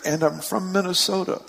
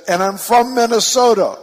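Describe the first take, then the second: First: Higher pitch, no shout; light retold call. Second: Much higher, very loud call; yelling. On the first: Preacher recalls the little thing, quoting lightly. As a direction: quote the yell lightly, without shouting. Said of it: "suddenly it's just a little thing". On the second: Retold or imitated. Lady adds her home state to preacher, yelling. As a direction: shout it proudly to the far end. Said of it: "she stands up and she yells".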